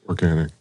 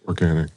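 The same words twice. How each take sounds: First: It is said in a put-on radio voice. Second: The same.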